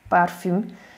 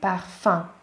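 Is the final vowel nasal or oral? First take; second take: oral; nasal. First: The last vowel is an oral ü sound. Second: The last vowel is a nasal vowel. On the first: The speaker calls it wrong. "semmiképp nem parfüm, mint magyarul" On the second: The speaker calls it right. "az un, parfum"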